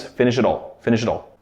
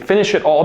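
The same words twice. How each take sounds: First: "finish it all" run together like two words; linked form. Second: "finish it all" with each word clear; careful form. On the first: Teacher showing the reduced form to learners. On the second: Teacher showing the full form first. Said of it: "finish it all becomes". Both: Shown as a demonstration.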